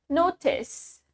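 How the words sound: The t is a clear t sound. "in British English, we have the T pronounced as T"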